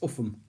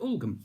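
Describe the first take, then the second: First: The middle is said with an F sound. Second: The middle is said with an L and G. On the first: The speaker calls it right. "It's Uffham" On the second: The speaker calls it wrong. "can you direct me to Ulgam?"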